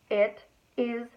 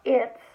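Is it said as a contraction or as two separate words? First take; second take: separate words; contraction. First: The words are said separately and spread out. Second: The words are contracted into one syllable. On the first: The speaker calls it right. "You spread it out deliberately to emphasize the point" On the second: The speaker calls it wrong. "Not it's"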